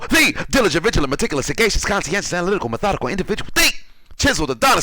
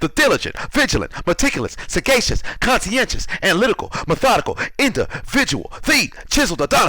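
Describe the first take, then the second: First: The words are spoken at a normal, quick pace. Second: The words are spoken slowly with gaps between them. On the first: The show closes out with a bang. "I'm going to say it with the regular speed" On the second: The audience can recite it along. "I'm going to say it slow a little bit more"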